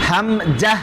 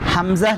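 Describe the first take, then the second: First: The middle consonant is a 'j' sound. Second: The middle consonant is a 'z' sound. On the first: The speaker calls it wrong. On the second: The speaker calls it right.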